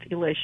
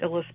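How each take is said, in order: First: The name is said with its Hungarian pronunciation. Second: The name is said with an anglicized pronunciation. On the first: The speaker calls it right. "it's a Hungarian name, and it's really pronounced Ilish" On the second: The speaker calls it wrong. "I usually pronounce it Illis"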